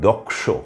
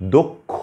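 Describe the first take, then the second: First: The cluster sounds like k followed by sh. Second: The cluster sounds like k followed by aspirated kh. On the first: This is the Sanskrit pronunciation. "এই শব্দটির সংস্কৃত ভাষায় উচ্চারণ হয় দক্ষ" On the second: This is the Bengali pronunciation. "উচ্চারণ হচ্ছে ক খ এর মতো"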